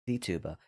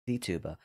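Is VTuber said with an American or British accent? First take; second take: American; American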